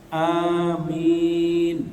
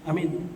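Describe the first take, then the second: First: Both vowels are held long. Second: Both vowels are kept short. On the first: Grant it, accept it. The speaker calls it right. "perhatikan a-nya panjang, mi panjang" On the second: Safe. The speaker calls it wrong. "Kalau bacanya sama-sama pendek"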